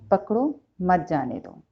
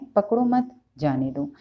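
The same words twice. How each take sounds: First: There is a pause after 'pakdo'. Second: There is a pause after 'mat'.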